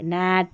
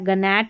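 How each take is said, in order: First: No g sound is heard before the n. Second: A g sound is heard before the n. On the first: The speaker calls it right. "जी silent है" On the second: The speaker calls it wrong. "गनैट नहीं पढ़ेंगे"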